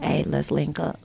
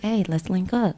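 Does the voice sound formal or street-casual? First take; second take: street-casual; formal. First: A put-on casual, street-style voice. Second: A put-on formal, professional-sounding voice. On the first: A hustler is asking to meet. "Or is he a dope boy talking about some" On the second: A professional is asking to meet. "Is he is he a lawyer talking about some"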